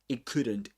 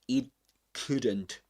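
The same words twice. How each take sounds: First: The sounds are run together quickly and reduced. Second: Each sound is said fully and carefully. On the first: "but we can do this" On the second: "In more careful speech, you'll you'll often hear"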